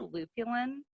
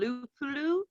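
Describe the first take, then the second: First: The name is said as Lupulin, ending in -lin. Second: The name is said as Lupulu, ending in -lu. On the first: The speaker calls it right. "it's actually Lupulin" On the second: The speaker calls it wrong. "Instead of"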